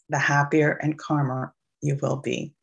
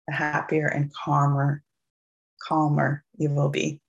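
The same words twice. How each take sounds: First: It is spoken without a New York accent. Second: It is spoken with a New York accent. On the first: The speaker calls it right. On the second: The speaker calls it wrong.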